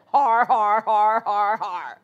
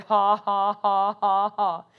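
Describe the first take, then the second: First: Hearty mock "har har" laugh; Brother Hagin's put-on laugh. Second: Low, deliberate fake "ha ha"; put-on laugh. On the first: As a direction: force out evenly spaced, growly-r guffaws. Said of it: "And to hear Brother Hagin". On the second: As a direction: force out an evenly spaced laugh. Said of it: "I put that laugh on".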